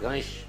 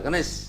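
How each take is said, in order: First: The final consonant is a palatal 'sh'. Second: The final consonant is a plain dental 's'. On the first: "तालू में touch कर रहा है गणेश" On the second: "सीधा स गणेश, दंत्य वाला गणेश"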